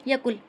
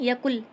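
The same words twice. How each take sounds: No difference in how they are said.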